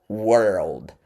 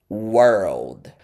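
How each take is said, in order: Both takes have the same delivery.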